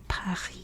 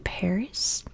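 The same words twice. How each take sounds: First: It is said with a French pronunciation. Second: It is said with an American English pronunciation. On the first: "They say Paris" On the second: "in America we say Paris"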